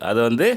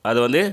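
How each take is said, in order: No difference in how they are said.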